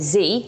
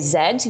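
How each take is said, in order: First: It is said the American way, 'zee'. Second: It is said the British way, 'zed'.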